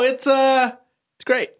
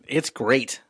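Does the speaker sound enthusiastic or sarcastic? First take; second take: enthusiastic; sarcastic. First: It is said in an enthusiastic tone. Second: It is said in a sarcastic tone. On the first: The praise is meant. The speaker calls it right. "A little more enthusiastic" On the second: The praise is not meant. The speaker calls it wrong. "It didn't sound like how I said it just now, all sarcastic"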